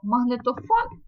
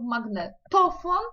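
First: The stress is on the last syllable. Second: The stress is on the second-to-last syllable. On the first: This is the familiar Ukrainian way of saying it. "зрозуміле для нас слово" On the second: This is the Polish way of saying it. "поляки ставлять інакше наголос"

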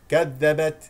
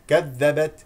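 The two takes are said the same way.

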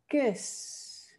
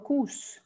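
First: The vowel sounds like a Spanish 'e'. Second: The vowel sounds like a Spanish 'u'. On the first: The speaker calls it right. "Sabiendo que suena e" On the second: The speaker calls it wrong. "Y no kus, no es kus"

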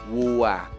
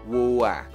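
First: The vowel sounds like "ua". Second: The vowel sounds like "ua".

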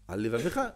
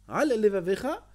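First: The two L sounds merge into one L. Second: Both L sounds are pronounced, one after another. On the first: The speaker calls it wrong. "Où est le lamed là? T'as volé un lamed" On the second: The speaker calls it right. "Voilà, t'as dit les deux lamed"

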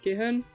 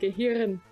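First: The R sound is weak and barely heard. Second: The R sound is strong and clearly heard. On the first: "sage ich nicht Gehirn" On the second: "Damit man das R auch richtig raushört"

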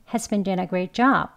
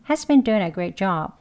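First: The word doing is very weak and fast. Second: The word doing is very weak and fast.

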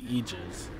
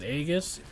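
First: It is said as 'ee-jiz'. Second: It is not said as 'ee-jiz'. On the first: This is the real pronunciation. The speaker calls it right. "Like imagine, like, E, and then Jizz" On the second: This is the common pronunciation. The speaker calls it wrong. "A lot of people pronounce it Aegis"

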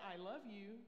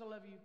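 First: It is said warmly, with feeling. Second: It is said flatly, without feeling. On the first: The speaker really means it. The speaker calls it right. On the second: It is said out of habit. The speaker calls it wrong.

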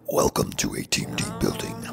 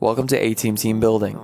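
First: It is said in a creepy put-on voice. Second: It is said in a normal speaking voice.

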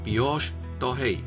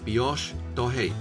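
First: The R is pronounced like an H sound. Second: The same.

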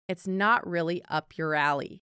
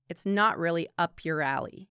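No difference in how they are said.

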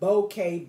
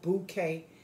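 First: The first syllable sounds like 'boh'. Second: The first syllable sounds like 'boo'. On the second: "if it's boo, put the B-O-O"

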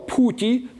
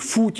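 First: The word begins with an aspirated p sound. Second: The word begins with an f sound.

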